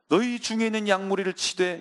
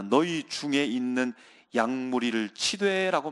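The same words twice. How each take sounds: First: "너희 중에 있는 양무리를 치되" said higher, each word weighted; emphatic repeat. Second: Said in the usual way. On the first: Shown as a demonstration. Preacher repeating the verse to the congregation, emphatic and raised. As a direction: repeat the verse again, lifting it up so it rings. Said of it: "어디서 들어본 적이 있습니까?". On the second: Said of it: "베드로는 이렇게 말합니다".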